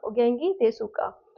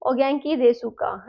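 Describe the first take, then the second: First: "ओगेंकी देसुका" repeated slowly with a falling end; "ओगेंकी देसुका" slow and polite; polite Japanese. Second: "ओगेंकी देसुका" said slowly with a falling end; polite "ओगेंकी देसुका" to a senior, slow and falling; polite Japanese. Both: Shown as a demonstration. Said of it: "polite form में बोलोगे".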